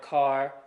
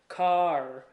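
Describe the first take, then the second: First: It is said smoothly with no break. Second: There is a break before the final R sound. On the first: The speaker calls it right. "when you don't have those weird pauses" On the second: The speaker calls it wrong. "those weird pauses like I'm doing"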